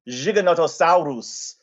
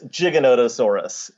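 First: It is said with an Argentine pronunciation. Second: It is said with an American pronunciation.

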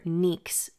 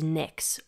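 First: The name is said with a Greek pronunciation. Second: The name is said with an English pronunciation.

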